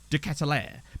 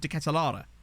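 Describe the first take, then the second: First: The name is said with English-style pronunciation. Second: The name is said with Dutch-style pronunciation. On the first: This is how most people say the name. "I've heard everyone say it" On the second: This is how native speakers say the name. "someone who's Belgian say it, they've always pronounced it as"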